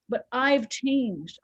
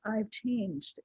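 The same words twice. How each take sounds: First: Slow and deliberate on "I've changed"; firm declaration of "I've changed"; emphatic. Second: "I've changed" repeated much softer, inward; quiet reflective repeat of "I've changed"; soft echo. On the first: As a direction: lean into "I've changed", drawn out. Stresses her change, slowly. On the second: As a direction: let "I've changed" fall away quietly. Repeats it softly to herself. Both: Real, not acted.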